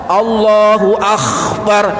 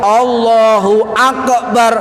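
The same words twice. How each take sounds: First: The k in Akbar is a raspy throat sound. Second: The k in Akbar has an echoing bounce. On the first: "Kaf, kaf bukan kha. ... Ini salah" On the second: "Utawa qalqalah"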